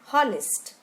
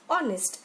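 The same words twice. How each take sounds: First: The word begins with an h sound. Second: The word begins with a vowel sound. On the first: The speaker calls it wrong. "and not honest" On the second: The speaker calls it right. "is pronounced as honest"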